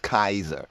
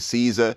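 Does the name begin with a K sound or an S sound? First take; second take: K sound; S sound. First: The name begins with a K sound. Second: The name begins with an S sound. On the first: This is the proper original pronunciation. The speaker calls it right. "the proper pronunciation is Kaiser" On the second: This is the common way people say it. The speaker calls it wrong. "Y'all might say Caesar"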